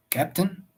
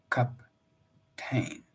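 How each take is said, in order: First: Said in the usual way. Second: "captain" as cap-TAIN, second syllable stressed and drawn out; stress on last syllable. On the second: Shown as a demonstration. Narrator showing how the rider says it, cap-TAIN. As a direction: lean on the end, cap-TAIN. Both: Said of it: "He gave emphasis to the last syllable".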